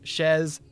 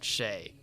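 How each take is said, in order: First: The syllable ends with a z sound. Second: The syllable ends in an open vowel. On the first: The speaker calls it right. "it's Shez" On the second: The speaker calls it wrong. "and not Shay"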